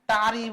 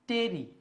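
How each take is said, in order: First: The vowel sounds like the 'a' in father. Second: The vowel sounds like the 'e' in bed. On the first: The speaker calls it wrong. "আবার অনেকে এটাকে টারি বলবে" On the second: The speaker calls it right. "মনে থাকবে উচ্চারণটা হবে টেরি"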